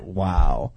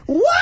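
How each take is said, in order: First: It is said flat and disappointed. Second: It is said with excited surprise.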